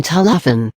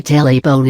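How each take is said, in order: First: "téléphone" said tuh-luh-fen, without ay sounds; accentless pronunciation. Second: "téléphone" said tay-lay-fen; acute-accent pronunciation. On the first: Teacher showing the word without acute accents, "téléphone" as tuh-luh-fen. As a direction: say "téléphone" with dull uh vowels. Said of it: "the French pronunciation would have been". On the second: Teacher showing what the acute accents do, "téléphone" as tay-lay-fen. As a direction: say "téléphone" with ay in both first syllables. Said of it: "Téléphone is pronounced téléphone". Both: Shown as a demonstration.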